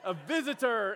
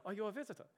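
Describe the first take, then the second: First: "visitor" louder and higher, with a clear final R; emphatic correction. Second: Put-on soft, higher accented "visitor", final R dropped; best accent impression. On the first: Retold or imitated. Friends correcting his mishearing, emphatic "visitor" with full R. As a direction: hammer the word "visitor" for someone who misheard. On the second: Older churchgoer asking a newcomer a question, accented impression. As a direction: imitate her accent on the question. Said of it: "that's my best impression".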